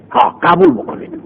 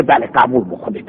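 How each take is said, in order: First: "قبول بکنید" jumps up high but stays soft; high insistence. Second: Low, soft "بله، قبول بکنید" said small and pleading; meek plea. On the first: Teacher echoes the captive's plea to accept, high and soft. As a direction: repeat "ها، قبول بکنید" much higher, urging. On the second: Captive begs the judges to accept, low and soft. Teacher voicing captive's answer. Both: Acted.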